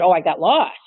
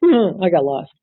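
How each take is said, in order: First: Lightly voiced employee's lame excuse in a changed voice; mock excuse. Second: "I got lost" with a light lean on "I", dry and falling; mock excuse repeated. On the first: Supervisor mimics employee's lame excuse, in a put-on voice. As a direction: act out her flimsy excuse with a sly shrug. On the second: Trainer repeats employee's excuse after laughing, leaning on "I". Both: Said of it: "and then she later said".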